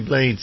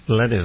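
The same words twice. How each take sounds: First: The name is said with English pronunciation. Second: The name is said with Spanish pronunciation. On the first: "We say Blades in English" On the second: "in Espanolish, it's Blades, I guess, is the correct pronunciation"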